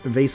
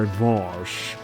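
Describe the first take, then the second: First: The vowel rhymes with face. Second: The vowel is an open ah, rhyming with boss. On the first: "Vase sounds vase like face" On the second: "clearly to sound pretentious, I should say Voss"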